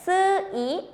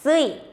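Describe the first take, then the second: First: "sui" said slowly, split as su... i; slow pronunciation. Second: "sui" run together as one syllable; quick pronunciation. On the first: Teacher breaks down a hard syllable for learners, slowly. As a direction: sound out "sui" in two separate parts, higher pitched. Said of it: "si pronunciamos despacito es". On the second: Teacher shows the syllable pronounced rapidly, blended together. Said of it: "si pronunciamos rápidamente es". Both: Shown as a demonstration.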